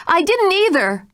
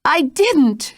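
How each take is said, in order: First: Even higher, louder frightened cry; terrified denial. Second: Much higher, breathless denial; gasped. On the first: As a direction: deny it, terror rising. Jane denies in terror. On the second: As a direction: gasp out the denial in terror. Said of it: "she gasped". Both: Acted.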